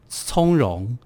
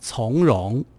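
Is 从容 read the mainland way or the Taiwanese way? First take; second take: Taiwanese; mainland. First: It uses the traditional Taiwanese variant reading. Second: It uses the plain mainland reading of the character. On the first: This is the traditional reading used on one side. "我们讲从容" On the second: This is the simplified modern reading used on the other side. "他们就会讲从容"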